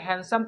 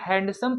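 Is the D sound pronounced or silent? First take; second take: silent; pronounced. First: The D sound is silent. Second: The D sound is pronounced. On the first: The speaker calls it right. "हैंडसम पढ़ेंगे" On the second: The speaker calls it wrong. "ये गलत माना जाएगा"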